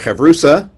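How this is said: The middle consonant is an s sound.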